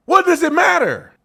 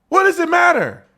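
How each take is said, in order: First: 1 angry question. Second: 1 angrier repeat. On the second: Repeated, louder and higher. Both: Real, not acted.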